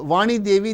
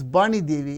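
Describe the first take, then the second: First: The name begins with a V sound. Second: The name begins with a B sound. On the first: "a name like uh, Vani Devi" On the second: "they pronounce as Bani Devi"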